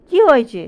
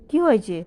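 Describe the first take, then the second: First: Sharp, much louder anxious question; worried loud call. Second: Said in the usual way. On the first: Real, not acted. Worried owner loudly asks her sick pet what's wrong. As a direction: raise your voice in alarm asking what's wrong.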